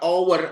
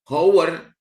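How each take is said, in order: First: The word begins with a vowel sound. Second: The word begins with an h sound. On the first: The speaker calls it right. "Hour itu dibaca vowel" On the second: The speaker calls it wrong. "Ini bacanya bukan hour"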